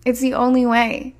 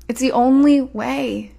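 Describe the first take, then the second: First: Said in the usual way. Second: Slowed right down, leaning on "only", said "only" long and falling; slow emphatic. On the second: Shown as a demonstration. Coach telling women to stop chasing, slow and emphatic. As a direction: drive it home: "It's the only way", with "only" drawn out.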